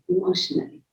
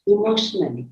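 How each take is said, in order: First: Whispered echo. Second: Said in the usual way. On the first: Shown as a demonstration. Repeats word, second time whispered.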